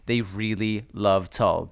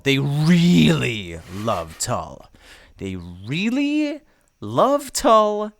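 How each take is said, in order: First: Said in the usual way. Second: Drawn-out, rising on "They really love Tull"; slow dramatic repeat. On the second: Acted.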